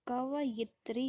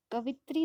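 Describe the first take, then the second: First: कवयित्री slow, ka-va-yit-ri; correct spelling. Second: कवित्री said ka-vit-ri; wrong spelling. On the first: Teacher slowly giving the correct कवयित्री. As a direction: slowly stress each syllable of कवयित्री. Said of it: "बल्कि कवयित्री होता है". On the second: Teacher showing the wrong form कवित्री. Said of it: "कवित्री नहीं होता है". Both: Shown as a demonstration.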